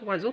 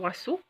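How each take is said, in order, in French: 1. La consonne du milieu est un Z bourdonnant. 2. La consonne du milieu est un S sifflant. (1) "mais on va dire oiseau" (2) "on ne va pas dire oiseau"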